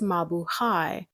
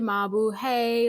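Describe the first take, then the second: First: The last syllable does not sound like 'hey'. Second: The last syllable sounds like 'hey'. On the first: "I know it's Mabu Hai" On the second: "they say Mabu Hey, like hey girl, hey"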